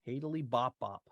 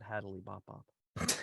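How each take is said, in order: First: The first word has three syllables. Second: The first word has two syllables. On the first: The speaker calls it right. "Hadily bop bop, not Hadley bop bop" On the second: The speaker calls it wrong. "not Hadley bop bop"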